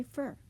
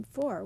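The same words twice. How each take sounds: First: "fur" as the weak form of for, fer; reduced vowel. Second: Said in the usual way. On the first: Shown as a demonstration. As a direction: lessen for to "fur". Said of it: "when we say fur". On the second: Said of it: "as in for".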